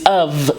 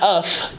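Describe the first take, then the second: First: The final sound is a voiced V. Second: The final sound is a voiceless F. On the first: The speaker calls it right. "It's a voiced F, if you will. So it's kind of like a V" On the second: The speaker calls it wrong. "It's not of"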